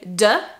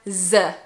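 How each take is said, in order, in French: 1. Il commence par un son d. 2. Il commence par un son z. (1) "Usually people say de" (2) "or z"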